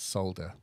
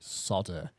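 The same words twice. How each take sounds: First: It is said with a British pronunciation. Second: It is said with an American pronunciation. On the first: The speaker calls it right. "when it's solder" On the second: The speaker calls it wrong. "why the Americans pronounce it solder"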